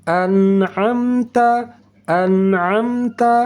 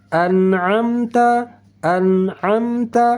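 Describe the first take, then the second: The two takes are said the same way.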